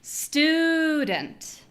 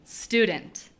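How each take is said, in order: First: "Student" with a high, long STU; hugely lengthened first vowel in "Student"; exaggerated first-syllable stress. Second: Said in the usual way. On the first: Shown as a demonstration. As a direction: stretch "Stuuu" high, drop a short "dent". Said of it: "The first one is long". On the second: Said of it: "when I say this normally".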